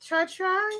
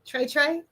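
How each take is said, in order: First: Broken-off "Tra-, Tra-", unsure start of the name; unsure name attempt. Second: "Trey Trey" said as TRAY TRAY, checking it's right; corrected name. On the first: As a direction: stumble over "Tra-" like you can't read it. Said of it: "how you say your name?". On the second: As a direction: try "Trey Trey" as two clear TRAYs, asking. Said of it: "it's pronounced Trey Trey". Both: Real, not acted.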